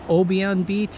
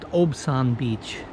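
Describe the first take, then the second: First: The name is said as Obion. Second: The name is said as Obsan. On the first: This is how many visitors say it. The speaker calls it wrong. "A lot of people pronounce it Obion Beach" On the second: This is how the locals say it. The speaker calls it right. "The locals told me it's pronounced Obsan Beach"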